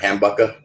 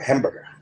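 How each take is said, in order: First: It is said in a Southie Boston accent. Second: It is said in a standard accent.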